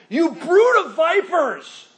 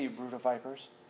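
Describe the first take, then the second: First: It is said forcefully, with strong passion. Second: It is said in a mild, casual way. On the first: The speaker calls it right. "Probably more the manner that he would deliver it. In passion" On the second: The speaker calls it wrong. "He's not going to say that"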